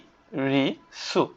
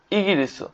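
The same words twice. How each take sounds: First: ইগিরিসু very slowly as ই, গি, রি, সু; syllable by syllable. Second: Said in the usual way. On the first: Shown as a demonstration. Teacher spelling out a country name, syllable by syllable. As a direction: pause between all four syllables of ইগিরিসু. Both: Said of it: "ইগিরিসু অর্থ কি?".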